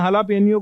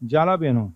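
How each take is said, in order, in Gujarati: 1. તે h થી શરૂ થાય છે અને 'nyo' થી પૂરો થાય છે. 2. તે j થી શરૂ થાય છે અને 'no' થી પૂરો થાય છે. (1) "આનો સાચો ઉચ્ચાર હાલાપેન્યો છે" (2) "બધા જાલાપેનો બોલતા હોય છે"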